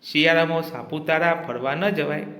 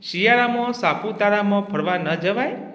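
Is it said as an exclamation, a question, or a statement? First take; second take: exclamation; question. First: It is said with an exclaiming, emotional tune. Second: It is said with a questioning tune. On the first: The speaker reacts with strong feeling. "ઉદ્ગાર વાક્ય" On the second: The speaker is asking whether this is so. "પ્રશ્નાર્થ વાક્ય"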